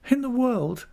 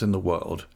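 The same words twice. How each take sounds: First: Put-on very high, girlish questioning echo; Dora. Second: Said in the usual way. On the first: A narrator's reading. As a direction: echo it as a high-voiced child-wife. Wife echoes husband in character.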